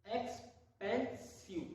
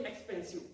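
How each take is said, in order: First: expensive stretched out very slowly; slow demo. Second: Said in the usual way. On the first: Shown as a demonstration. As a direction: draw out expensive syllable by syllable. (Expensive बहुत धीरे खींचकर) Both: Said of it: "बोल देखिए".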